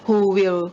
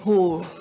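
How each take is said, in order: First: Both words are said fully and separately. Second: The two words blend into one reduced form.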